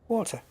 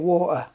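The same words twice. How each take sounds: First: The middle T sound is clearly pronounced. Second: The middle T sound is dropped. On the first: "I pronounce the T" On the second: "we're both missing T's out all over the place"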